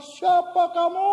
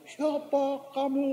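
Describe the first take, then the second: First: High, slow shout across a ravine; imitated kid's loud challenge into the distance; child calling out. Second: High, slow, softer echo of a call; distant echo with stretched vowels; echo answering back. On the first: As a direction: holler the question like a kid, stretched out. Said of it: "Lalu anak ini bilang". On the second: Retold or imitated. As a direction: imitate a ravine echoing back, drawn out. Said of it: "jawaban dari balik jurang".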